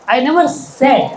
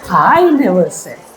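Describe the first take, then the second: First: The word 'said' carries the strongest stress. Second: The word 'I' carries the strongest stress. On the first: It was written, not spoken. "I just wrote it somewhere" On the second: Someone else said it. "Somebody else might have said, but I never said"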